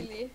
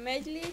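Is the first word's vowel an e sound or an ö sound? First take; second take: ö sound; e sound. First: The first word is said with an ö vowel. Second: The first word is said with an e vowel. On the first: It imitates the speech of people from Szeged. "csak egy már egy kicsit mögy" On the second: It is the standard form. "mint a megy lé"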